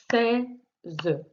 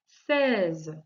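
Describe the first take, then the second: First: "Seize" broken as sei, pause, ze; split into syllables. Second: Said in the usual way. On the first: Shown as a demonstration. Teacher showing the child where the sound is, split into syllables. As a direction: separate "Seize" into two beats, sounding the final e. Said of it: "sur la première syllabe". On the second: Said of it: "le premier mot".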